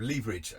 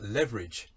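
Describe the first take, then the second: First: Leverage said as "LEE-ver-ij"; long EE in the first syllable of leverage; British pronunciation. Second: Leverage said as "LEV-er-ij"; short E in the first syllable of leverage; correspondent's American pronunciation. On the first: Shown as a demonstration. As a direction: leverage starting like "lever" rhymed with "fever". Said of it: "instead of leverage". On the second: Retold or imitated. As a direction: leverage starting like "level". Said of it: "hear a B B C correspondent".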